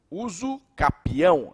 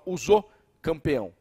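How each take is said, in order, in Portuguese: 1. A última palavra não tem m antes do p. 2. A última palavra tem um m antes do p. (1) "Não, uso capião, é uso capião" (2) "tem uns que falam uso campeão"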